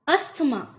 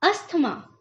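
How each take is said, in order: First: A 'th' sound is heard in the middle. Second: The same.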